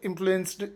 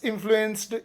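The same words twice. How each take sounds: The two takes are said the same way.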